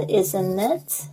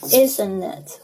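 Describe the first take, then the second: First: Slow "isn't it" with an upturned tail; "isn't it" rising to ask; rising tag question. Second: Slow "isn't it" settling downward; falling tag question. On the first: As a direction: stretch "isn't it" and lift the last word. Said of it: "好像尾巴上扬". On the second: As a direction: say "isn't it" slowly, no rise at the end. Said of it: "这两种腔调都有人说过". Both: Shown as a demonstration.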